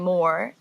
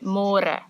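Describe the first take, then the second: First: The r is a smooth English-style r. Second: The r is rolled with the tongue. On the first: The speaker calls it wrong. "in English it's spelled like more. So don't say more" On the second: The speaker calls it right. "say more"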